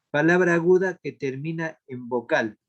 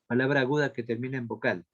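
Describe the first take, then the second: First: Firm, measured dictation to a class. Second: Fast, run-together repeat of a dictation; quick repeat. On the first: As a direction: dictate it clearly, opening strongly. Dicta la respuesta a los alumnos. (dictado firme y pausado) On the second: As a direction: repeat it briskly in one go. Repite el dictado más rápido. (repetición rápida del dictado) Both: Real, not acted.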